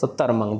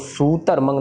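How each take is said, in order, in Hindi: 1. पहला स्वर छोटा और जल्दी वाला है। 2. पहला स्वर खींचकर लंबा बोला जाता है। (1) "जल्दी जल्दी बोल के निकले थे हम" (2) "सूतरमंग नहीं कहना, सस्य को लंबा नहीं खींचना"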